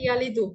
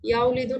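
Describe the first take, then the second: First: No 'w' sound follows the first syllable. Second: A 'w' sound follows the first syllable. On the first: This is the simplified form speakers actually use. "আরবরা সহজ করে ইয়ালিদু" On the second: This is the form the root predicts. "এটার বর্তমান ভবিষ্যৎ রূপটা ইয়াউলিদু হওয়ার কথা ছিল"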